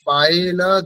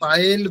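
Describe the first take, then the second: First: The name ends with an added a vowel. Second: The name ends on a bare l consonant. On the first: The speaker calls it right. "পায়েল এখানে লয়ে হসন্ত নেই তাই না?" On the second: The speaker calls it wrong. "পায়েল বললে তো হবে না।"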